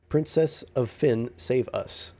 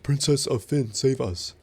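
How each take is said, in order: First: It is read in a plain, normal voice. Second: It is read in a put-on character voice.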